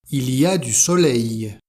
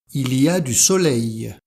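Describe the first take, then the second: No difference in how they are said.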